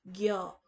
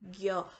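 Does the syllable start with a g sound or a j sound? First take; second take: g sound; g sound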